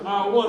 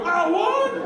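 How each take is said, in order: First: Said in the usual way. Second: High incredulous holler; mock disbelief. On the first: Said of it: "And he goes". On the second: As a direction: copy the outraged shopper's question. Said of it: "I go".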